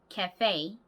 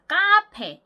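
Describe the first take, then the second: First: The first vowel sounds like 'ae'. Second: The first vowel sounds like 'ah'. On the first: The speaker calls it right. "캐 그리고 뒤에 강세" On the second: The speaker calls it wrong. "카페 이게 아니고요"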